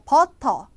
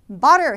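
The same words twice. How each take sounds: First: The middle t is a hard, clear t. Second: The middle t is a quick flap. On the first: The speaker calls it wrong. "butter가 아니라" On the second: The speaker calls it right. "butter 해야죠"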